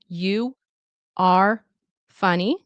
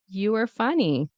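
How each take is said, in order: First: Each word is said slowly and separately. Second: 'You are' is reduced and run together. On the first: "slow and careful" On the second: "in natural reduction"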